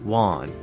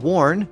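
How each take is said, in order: First: The R after the vowel is dropped. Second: The R after the vowel is pronounced.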